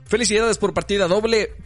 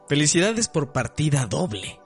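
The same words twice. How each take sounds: First: It is read at a fast pace. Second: It is read at a slow pace.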